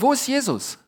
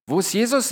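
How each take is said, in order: First: Wo raised high and leaned on; stress on wo. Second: Jesus stressed with a rising question tune. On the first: Preacher asking the congregation, stressing wo. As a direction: ask it stressing wo, voice climbing on wo. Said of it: "preacher asks the key question". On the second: Preacher repeating to the congregation, rising on Jesus. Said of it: "question repeated with new stress". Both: Shown as a demonstration.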